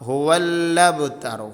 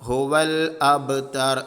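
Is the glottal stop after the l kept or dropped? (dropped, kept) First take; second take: dropped; kept. First: The l is doubled and the glottal stop dropped. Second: The glottal stop after the l is kept. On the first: The speaker calls it wrong. "ലാമിന് ഷെദ് കൊടുത്ത് നേരെ ബാ ഉച്ചരിക്കും" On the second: The speaker calls it right. "ഹുവൽ അബ്തർ അങ്ങനെ തന്നെ ഓതണം"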